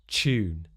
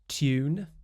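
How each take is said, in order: First: It starts with a merged ch sound. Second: It starts with a separate t and y sound. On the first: "a second time with the Yod coalescence" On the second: "first with the more standard R P, with the t and the y together"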